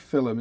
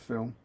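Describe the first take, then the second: First: It is said with an Irish-style pronunciation. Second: It is said with a standard pronunciation. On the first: It is a pronunciation borrowed from another accent. "Why do you say film" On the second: It is the usual pronunciation. "instead of film"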